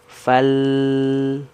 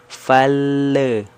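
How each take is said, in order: First: The L is held without any bounce. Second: The L bounces with an extra vowel release. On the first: The speaker calls it right. "Harusnya kan ditahan saja di atas" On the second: The speaker calls it wrong. "itu biasanya suka terpantul"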